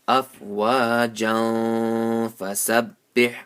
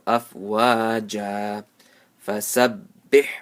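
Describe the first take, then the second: First: It flows on with a nasal link. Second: It stops after a stretched first word. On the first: "if I don't want to stop here, it would be like this" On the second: "this is how uh, we, we read when we stop over here"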